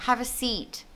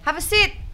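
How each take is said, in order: First: The vowel in seat is long, like seat. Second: The vowel in seat is short, like sit. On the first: The speaker calls it right. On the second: The speaker calls it wrong. "sering tukar gitu, sit sama seat"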